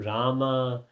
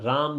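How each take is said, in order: First: The name ends with a final vowel sound. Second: The name ends on a consonant, no final vowel. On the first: This is the English form. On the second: This is the original Vedic form.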